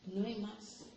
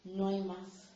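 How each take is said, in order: First: No hay más repeated much softer, almost to oneself; soft echo of No hay más; echoed quietly. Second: Said in the usual way. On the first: Shown as a demonstration. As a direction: let No hay más fall away softly.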